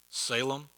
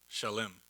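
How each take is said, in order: First: The name begins with a plain s sound. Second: The name begins with a sh sound. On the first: This is the familiar local way of saying it. "That's how we pronounce it" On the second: This is the original ancient form of the name. "but it's uh, Shalem"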